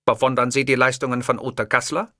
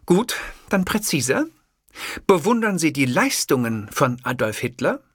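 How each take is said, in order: First: The question thrown back, stress on "die"; mocking echo. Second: Higher, pointed female interviewer voice with stress on "bewundern"; impatient reporter, "bewundern" weighted; pressing journalist. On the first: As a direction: parrot her question with a sly lean on "die". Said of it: "mirrors her question". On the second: Acted. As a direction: push the question hard, leaning on "bewundern".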